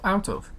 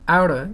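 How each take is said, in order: First: Both words are said separately and in full. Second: The words are run together into one reduced word.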